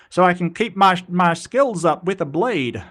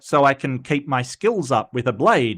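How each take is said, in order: First: It is said in a put-on Southern accent. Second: It is said in the speaker's plain voice.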